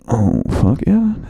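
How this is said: It is said in a creepier, leering way.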